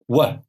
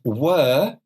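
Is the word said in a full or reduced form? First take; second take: reduced; full. First: The vowel is reduced and weak. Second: The vowel is full and clearly pronounced.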